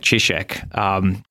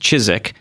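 First: The name is said with a Polish pronunciation. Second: The name is said with an American pronunciation. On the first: "That's a good Polish way of pronouncing it" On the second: "In America, oftentimes it's pronounced"

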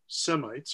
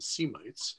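First: It is said with an American pronunciation. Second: It is said with an English pronunciation.

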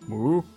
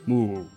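First: The pitch rises at the end, like a question. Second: The pitch falls at the end. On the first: "that's more questioning, isn't it?" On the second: "Could it go down at the end? Yeah"

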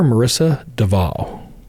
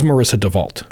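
First: The surname is said in a French-sounding way. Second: The surname is said in a plain English way. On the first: This is a glamorous persona created for court. The speaker calls it wrong. "This really sexy French name" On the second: This is the name she originally gave. The speaker calls it right. "when we were interviewing her, it was Marissa DeVault"

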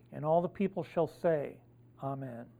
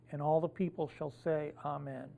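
No difference in how they are said.

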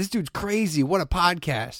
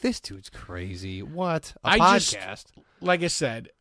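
First: It sounds delighted and admiring. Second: It sounds worn out and exasperated. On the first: The speaker is enjoying the podcast. "you can say the same sentence but make it sound so many different ways" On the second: The speaker is tired of the long podcast. "by the time I was done"

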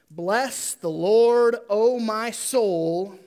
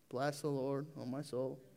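First: It is read with exclamatory energy. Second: It is read flatly without exclamation.

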